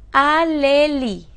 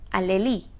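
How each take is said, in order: First: "alelí" slow and loud, a, le, lí; syllable by syllable. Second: Said in the usual way. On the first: Shown as a demonstration. Teacher presenting a word to classify, "alelí" syllable by syllable. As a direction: sound out "alelí" slowly and firmly. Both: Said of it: "está acentuada en la última".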